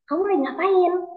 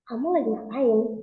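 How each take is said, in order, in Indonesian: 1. Pertanyaannya terdengar senang dan ceria. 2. Pertanyaannya terdengar curiga dan waspada. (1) "misalnya saya lagi happy" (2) "saya lagi curiga"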